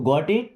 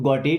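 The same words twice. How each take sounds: First: It is said as a question. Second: It is said as a statement.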